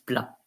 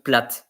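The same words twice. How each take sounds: First: The final T is silent. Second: The final T is pronounced. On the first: The speaker calls it right. "the T is silent" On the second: The speaker calls it wrong. "if you are pronouncing plat, it's as if there is an E behind the T"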